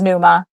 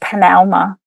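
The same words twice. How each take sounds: First: It is said with a familiar English pronunciation. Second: It is said with an ancient Greek pronunciation.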